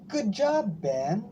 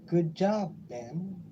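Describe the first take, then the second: First: It is said with lively, excited expression. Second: It is said flatly, without excitement.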